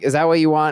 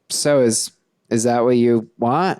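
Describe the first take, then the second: First: It is said at a normal pace. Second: It is said more slowly.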